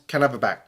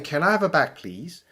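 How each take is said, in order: First: It sounds like a blunt order. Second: It sounds like a polite request.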